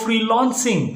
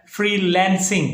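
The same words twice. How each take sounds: First: "फ्रीलांसिंग" as free-LAWN-sing; the faulty free-LAWN-sing for "फ्रीलांसिंग"; mispronunciation. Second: "फ्रीलांसिंग" as free-LEN-sing; correct pronunciation. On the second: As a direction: say "फ्रीलांसिंग" with an open e, free-lan-sing as in land. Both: Shown as a demonstration. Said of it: "तो भाई फ्रीलांसिंग नहीं".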